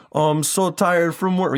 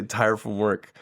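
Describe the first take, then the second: First: Much higher, hammed-up Jamaican dad coming home worn out; terrible Jamaican accent. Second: Said in the usual way. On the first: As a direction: groan it like a sitcom Jamaican father after a long shift. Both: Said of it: "forgive him the terrible Jamaican accent".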